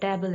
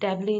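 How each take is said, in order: First: The word ends without any added vowel. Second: The word ends with an added 'ee' vowel. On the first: The speaker calls it right. "टेबल है" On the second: The speaker calls it wrong. "टेबली नहीं है"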